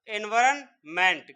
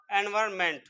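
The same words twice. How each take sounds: First: environment said slowly, syllable by syllable; slow spelled-out word. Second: Said in the usual way. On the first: Shown as a demonstration. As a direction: stretch environment out slowly, each syllable separate. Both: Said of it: "क्या हो जाएगा फिर".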